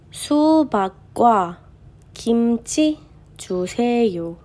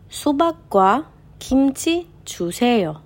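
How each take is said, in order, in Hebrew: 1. המשפט נקרא בקצב איטי. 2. המשפט נקרא בקצב מהיר יותר.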